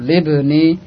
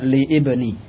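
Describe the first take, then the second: First: The vowel starting ibni is dropped and linked. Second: The vowel starting ibni is pronounced separately. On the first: The speaker calls it right. "langsung libni" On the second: The speaker calls it wrong. "tidak antum baca li ibni"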